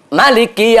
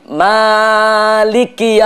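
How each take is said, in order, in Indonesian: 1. Vokal setelah m pendek. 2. Vokal setelah m panjang. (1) "memendekkan mim" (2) "memanjangkan mim. ... Mimnya panjang"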